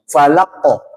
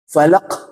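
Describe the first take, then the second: First: The final q bounces with a round echo. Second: The final q ends with a breathy k release. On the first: The speaker calls it right. "Harusnya dipantul dan dia bulat suaranya" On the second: The speaker calls it wrong. "ini salah ini ya"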